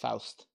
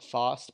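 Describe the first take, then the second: First: The name is said with a German pronunciation. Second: The name is said with an English pronunciation. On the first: The speaker calls it right. "I do think it's Faust. ... a German approach" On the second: The speaker calls it wrong. "when I was younger I said Faust"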